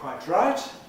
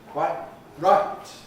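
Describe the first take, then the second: First: The t and r merge into one affricate. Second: The t is replaced by a glottal stop. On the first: "You can put the T and the R together, making a tr affricate out of it" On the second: "replace the T with a glottal stop"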